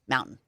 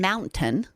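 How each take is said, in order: First: The T is swallowed with the mouth left open. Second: The T is clearly released with a closed mouth. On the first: "we just don't close our mouth and it's all one word" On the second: "I had to close my my mouth to make that hard T sound"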